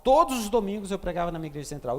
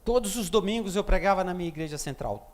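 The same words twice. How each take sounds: First: Same line said fast, pressing on; hurried emphatic repeat; quicker repeat. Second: Said in the usual way. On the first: Shown as a demonstration. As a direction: rush the repeat to drive it home. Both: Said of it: "repeats the line faster".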